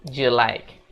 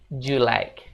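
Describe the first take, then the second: No difference in how they are said.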